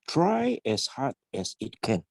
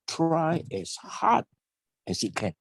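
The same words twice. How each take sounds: First: No word is given special stress. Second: The word hard is stressed. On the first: "when you said" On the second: "why not stress on the word hard?"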